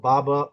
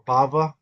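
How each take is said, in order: First: The middle consonant is a B sound. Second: The middle consonant is a V sound. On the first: "this B here" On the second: "can also be pronounced like a V"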